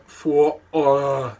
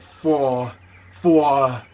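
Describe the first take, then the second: First: Loud rumbling "Four" from the chest; deep chest rumble. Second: Loud chesty Walken "Four, four"; Walken rumble. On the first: Shown as a demonstration. Showing where the sound sits, loud chesty "Four". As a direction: push "Four" down low and loud. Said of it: "down there like that". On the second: Retold or imitated. Imitating Timmy's Walken, loud chesty "Four". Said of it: "but he's like".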